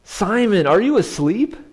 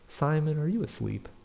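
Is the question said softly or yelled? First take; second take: yelled; softly. First: It is said loudly, like a yell. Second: It is said softly, without yelling. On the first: The speaker calls it wrong. "I don't picture that" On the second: The speaker calls it right. "maybe Jesus said it like this. ... Maybe not yelling"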